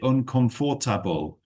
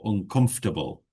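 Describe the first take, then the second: First: The middle 'for' syllable is fully pronounced. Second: The middle 'for' syllable is reduced. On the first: The speaker calls it wrong. "sometimes people overpronounce it. They sort of say uncomfortable" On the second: The speaker calls it right. "We can just say uncomfortable"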